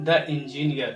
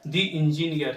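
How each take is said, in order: First: "the" in "the engineer" as a short "thuh"; common mispronunciation. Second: "the" in "the engineer" as long "thee"; correct pronunciation. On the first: Teacher showing learners' mistake, "the engineer" with "thuh". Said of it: "जो बहुत भारी mistake है". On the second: Teacher correcting learners, "the engineer" with "thee". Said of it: "इसको हमें पढ़ना होगा". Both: Shown as a demonstration.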